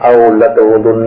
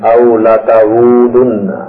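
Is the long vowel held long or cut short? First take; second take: short; long. First: The long vowel is cut short. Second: The long vowel is stretched out. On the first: The speaker calls it wrong. "نہیں" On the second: The speaker calls it right. "اس میں آواز کا کھینچنا ضروری ہوتا ہے"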